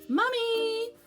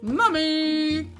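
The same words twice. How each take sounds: First: It is said at a normal, soft volume. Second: It is said a little louder.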